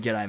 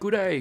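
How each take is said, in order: First: The greeting is clipped into one short word. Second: The greeting is said as two full words. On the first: This is the natural Australian greeting. The speaker calls it right. "I say" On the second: The speaker sounds un-Australian. The speaker calls it wrong. "Vice has got some funny pronunciation for things"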